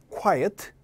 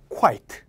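First: "quiet" as KWAI-uht, with two vowels; two-syllable quiet. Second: "quite" as a single beat, KWAIT; one-syllable quite. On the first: Teacher leading the class together, "quiet" in two syllables. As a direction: give "quiet" a separate second syllable. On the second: Teacher leading the class together, "quite" in one syllable. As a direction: run the glide straight into the t of "quite". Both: Shown as a demonstration. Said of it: "순서만 좀 교묘하게 바뀌어있죠".

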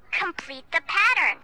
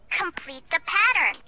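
Both takes have the same delivery.

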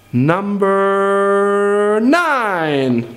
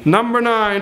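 First: Drawn-out announcement. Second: Said in the usual way. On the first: Shown as a demonstration. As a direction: stretch every syllable of Number nine, very slowly. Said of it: "stretched announcement". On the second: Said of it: "quick plain repeat".

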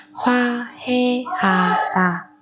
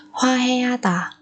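First: Very slow, spaced Hoa heata; syllable by syllable. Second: Said in the usual way. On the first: Shown as a demonstration. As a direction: pause after each syllable of Hoa heata. Teacher splits word by syllable. (đọc thật chậm Hoa heata từng âm tiết)

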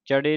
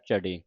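First: ਚੜੇ with a plain ch as in ਚੱਚਾ; wrong initial consonant. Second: ਝੜੇ low-toned, with the Punjabi ਝ; correct jhajja sound. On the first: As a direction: say ਚੜੇ starting on unvoiced ch. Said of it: "ਨਹੀਂ ਕਹਿ ਦੇਣਾ ਚੱਚੇ ਦੇ ਨਾਲ". (ਚੜੇ ਚੱਚੇ ਦੇ ਨਾਲ) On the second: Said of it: "ਝੱਝੇ ਦੇ ਨਾਲ ਉਚਾਰਨ ਕਰਨਾ". (ਝੜੇ ਝੱਝੇ ਦੇ ਨਾਲ) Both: Shown as a demonstration.

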